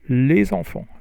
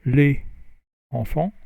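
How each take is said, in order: First: The words are linked with a z sound. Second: The words are said separately without a z sound. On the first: The speaker calls it right. "But if you do the liaison" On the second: The speaker calls it wrong. "If you don't do the liaison"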